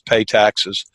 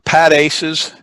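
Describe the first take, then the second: First: It is said like 'pay taxes'. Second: It is said like 'pat aces'. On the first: "we also sometimes pronounce it as pay taxes" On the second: "Pat Aces is one"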